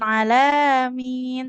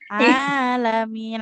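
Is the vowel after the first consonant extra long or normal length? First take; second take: extra long; normal. First: The first vowel is held extra long. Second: The first vowel is held for normal length. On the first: The speaker calls it wrong. "bukan alamin" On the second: The speaker calls it right. "Ainnya dua harokat saja"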